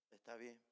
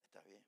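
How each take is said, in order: First: Tearful, quiet. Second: Fading into near-silence through tears; a tearful whisper of a reply; tearful, nearly inaudible. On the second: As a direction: let it die away, barely voiced, choked up. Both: Retold or imitated. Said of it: "yo estoy llora y llora".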